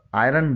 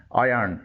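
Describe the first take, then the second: First: آئرن said "eye-run"; common mispronunciation. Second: آئرن said "eye-urn"; no r before the vowel in آئرن; correct iron pronunciation. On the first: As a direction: sound the r before the vowel in آئرن. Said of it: "جو غلط ہے". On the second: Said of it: "اس کی درست pronunciation ہے". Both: Shown as a demonstration.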